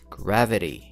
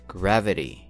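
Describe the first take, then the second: No difference in how they are said.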